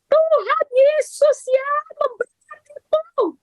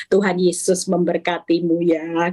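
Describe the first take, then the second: First: Very high, slow, strained yell; mock shrieked blessing. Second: Gentle blessing. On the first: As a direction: shriek the blessing through gritted annoyance. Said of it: "teriak ya seperti Bu Cincin". (teriakan jengkel yang dibuat-buat) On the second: Shown as a demonstration. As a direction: say it kindly and evenly. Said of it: "ngomongnya pasti lemah lembut". (berkat lemah lembut)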